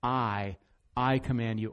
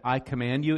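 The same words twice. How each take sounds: First: "I" punched first, the rest falls away; stress on I. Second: "you" lifted with a rise at the end; stress on you. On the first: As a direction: hit "I" hard, then command. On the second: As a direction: land on "you" and lift it. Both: Shown as a demonstration. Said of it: "It's, it's emphatic there".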